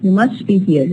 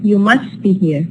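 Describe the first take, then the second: No difference in how they are said.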